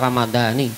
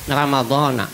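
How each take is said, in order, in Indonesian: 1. Kata ini berakhir dengan vokal 'i'. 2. Kata ini berakhir dengan vokal 'a'. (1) "bukan ramadhani" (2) "ramadhana bukan ramadhani"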